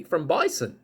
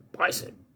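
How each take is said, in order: First: Said in the usual way. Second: Bison breathed out as a whisper; whispered repeat. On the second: Shown as a demonstration. Repeating the animal's name to the viewer, whispered.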